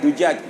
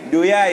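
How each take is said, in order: First: It is said with j sounds. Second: It is said with y sounds. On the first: This is the standard form. The speaker calls it right. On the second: This is the Hadhrami pronunciation. The speaker calls it wrong. "duyai dia bilang"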